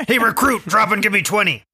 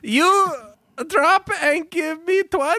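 First: Drill sergeant. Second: Very high, squeaky dim echo; parroting recruit voice. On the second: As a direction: repeat the order back cluelessly. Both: Acted.

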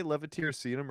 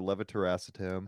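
First: Levetiracetam said with SEE-tum at the end; first pronunciation. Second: Levitiracetam said with ASS-uh-tam at the end; alternative pronunciation. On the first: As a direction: say levetiracetam as leh-vuh-teer-uh-SEE-tum. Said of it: "how do you s-, do you say". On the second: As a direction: say levitiracetam as leh-vuh-ter-ASS-uh-tam. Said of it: "do you say levetiracetam or levitiracetam". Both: Shown as a demonstration.

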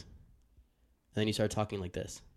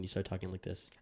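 First: Said in the usual way. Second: "talking like this" said softer, turned away from the mic. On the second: Shown as a demonstration. Host showing his co-host how he sounds off-mic, softer. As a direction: let the words drift off the mic.

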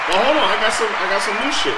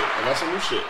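First: High, loud and hyped up; bursting to show off the new toy; excited. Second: Said in the usual way. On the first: Real, not acted. Showing off new sound effects.

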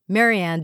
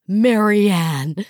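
First: Said in the usual way. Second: Loud, rising squeal of the name; old friend spotting Marianne, squealing; delighted squeal. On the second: Acted. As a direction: call across the room, overjoyed. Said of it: "a delighted voice squealed".

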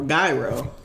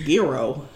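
First: "Gyro" rhyming with Cairo; slow demonstration of "Gyro" with a long I; mispronunciation. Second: "Giro" with a long EE first syllable; slow demonstration of "Giro" with EE; variant pronunciation. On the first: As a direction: say "Gyro" with EYE in the first syllable. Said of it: "people can pronounce things wrong". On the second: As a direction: say "Giro" as YEE-roh or GEE-roh, with an EE. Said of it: "Just like when people say". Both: Shown as a demonstration.

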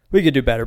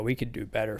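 First: Punched out with a louder push. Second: Quiet. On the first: Vlogger to viewers about Toyotas, said out loud. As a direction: hit it hard the second time. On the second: Vlogger to viewers about Toyotas, said softly. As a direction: murmur it under your breath. Repeats the line, quiet first. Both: Real, not acted.

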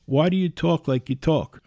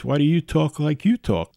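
First: Said in the usual way. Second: Mild teasing lean on "you" in "like you talk"; stress on you. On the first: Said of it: "Alex says to me". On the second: Retold or imitated. Host teasing listener Alex, leaning on "you" in "like you talk". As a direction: turn it back by leaning on the second "you" in "like you talk". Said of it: "Oh, Alex".

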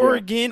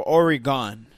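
First: Oregon ending in a quick, unstressed "gin"; Oregon with short ending. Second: Oregon with an open "gahn" at the end; Oregon ending in "gone". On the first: Cohost asks how locals say it, Oregon as OR-ih-gin. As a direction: say Oregon as OR-ih-gin, weak last syllable. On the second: Cohost offers the other version, Oregon as OR-ih-gahn. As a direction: say Oregon as OR-ih-GONE, full last vowel. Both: Shown as a demonstration. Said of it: "Is it Oregon or Oregon?".

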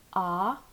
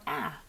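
First: 'ah' as an open, drawn-out ah; open AH sound. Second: 'ah' as a drawn-out front vowel, as in cat; short A sound. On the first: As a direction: say 'ah' slowly, as in father. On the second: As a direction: say 'ah' like the a in apple, held slowly. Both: Shown as a demonstration. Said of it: "if they should pronounce it as".

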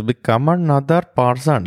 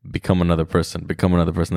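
First: Mock generic Hollywood Indian accent, pitched higher; imitating a cheesy two-thousands film Indian accent; bad Indian accent. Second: Said in the usual way. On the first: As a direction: ham up a shitty movie Indian accent. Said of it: "shitty, generic Indian accent". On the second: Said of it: "he basically sits down and he goes".

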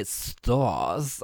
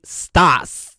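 First: 'stás' lowered and drawn into 'stawrs'; right version. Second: Loud short 'stás' with open 'ah'; wrong version. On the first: Host showing what you have to say, rounded 'stás'. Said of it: "You have to say". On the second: Host showing what you cannot say, open 'stás'. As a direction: say 'stás' as a plain 'stahs'. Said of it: "You cannot say". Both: Shown as a demonstration.

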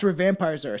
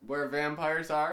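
First: Plain. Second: Said a little louder on request. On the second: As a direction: speak up for the mic. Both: Shown as a demonstration. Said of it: "Say it a little louder".

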